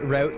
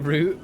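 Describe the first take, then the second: First: The vowel sounds like the one in out. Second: The vowel sounds like the one in boot. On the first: "could be R O W T" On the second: "like R O O T"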